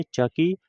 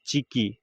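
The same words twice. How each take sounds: First: चकी with an 'a' after च; first reading. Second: चिकी with an 'i' after च; alternative better reading. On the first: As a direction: say चकी, 'cha-kee', pitched up. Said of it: "या इसे ऐसे भी पढ़ सकते हैं". (चकी, 'च' पर अ के साथ) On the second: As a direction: say चिकी, 'chi-kee', with a falling end. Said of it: "ऐसे भी पढ़ सकते हैं". (चिकी, 'च' पर छोटी इ के साथ) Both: Shown as a demonstration.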